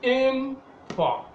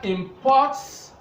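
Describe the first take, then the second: First: The stress is on the first syllable. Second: The stress is on the second syllable. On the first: It names a thing brought in. "that is a noun" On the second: It names the action of bringing in. "stress is on the second syllable"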